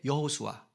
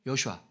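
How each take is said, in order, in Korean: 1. 천천히 발음해요, 음절 하나하나를 또박또박. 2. 빨리 발음해요, 음절이 서로 붙어요.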